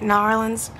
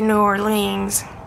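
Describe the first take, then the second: First: The name is said quickly in a shortened form. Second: The name is said fully with every syllable. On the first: "I say it quick" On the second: "I used to say New Orleans"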